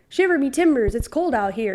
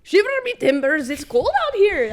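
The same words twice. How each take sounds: First: A light, understated pirate accent; lightly voiced pirate, held back; half-hearted pirate. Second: High, loud pirate accent, full out; thick pirate accent. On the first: Pirate line to her friend, barely performed. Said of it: "I did not put everything that I have into that". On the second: Asked for a thick accent, she hams up a pirate. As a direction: go all in on a hammy pirate voice. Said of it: "A thick accent". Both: Shown as a demonstration.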